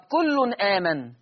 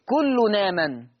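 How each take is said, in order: First: "كل آمن" with a break before the long aa; hamza sounded. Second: Slow "كل آمن" linked as kullu-naaman; naql. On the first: Teacher giving it before naql, "كل آمن" with glottal stop. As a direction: say "كل آمن" as kullun, stop, aaman. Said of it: "هيبقى فيها نقل". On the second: Teacher showing naql, "كل آمن" run together without hamza. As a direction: glide the n of "كل آمن" into the long aa. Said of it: "هيبقى فيها نقل مع ثلاثة البدل". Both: Shown as a demonstration.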